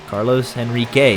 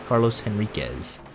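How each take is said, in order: First: The surname ends without a final z sound. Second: The surname ends with a final z sound. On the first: This is not the form the person goes by. The speaker calls it wrong. "is the alternate pronunciation" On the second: This is the form the person goes by. The speaker calls it right. "that's not what he goes by. It's"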